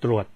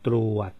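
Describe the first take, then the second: First: The word is said at normal speed. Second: The word is said slowly.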